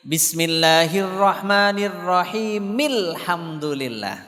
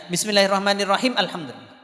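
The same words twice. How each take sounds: First: Slow chant, "Bismillahirrahmanirrahim" flowing into "alhamdulillah" as rahimil-hamdu; joined recitation. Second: "Bismillahirrahmanirrahim" stopped on m, then "alhamdulillah" with its own first a; wrongly joined reading. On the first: Teacher showing how to join verses, slow chanted "rahimil-hamdulillah" link. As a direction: sound the final vowel and link "Bismillahirrahmanirrahim" to "alhamdulillah" slowly. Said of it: "Caranya kalau nyambung, harkatnya itu dibaca di akhir".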